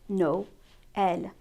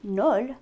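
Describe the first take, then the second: First: The two vowels are split into two syllables. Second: The two vowels merge into one syllable. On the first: The speaker calls it right. "we would say No-el" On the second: The speaker calls it wrong. "We wouldn't say Nol"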